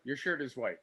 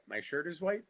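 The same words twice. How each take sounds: First: "Your shirt is white" softly, falling at the end; monotonous statement. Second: "My shirt is white" softly, rising at the end; monotonous echo. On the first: Actor shows repetition drill, "Your shirt is white" droned, falling. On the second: Actor plays drill partner, "My shirt is white" soft, rising. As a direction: echo "My shirt is white" back like a rote question. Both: Shown as a demonstration. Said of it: "monotonous boredom of repetition".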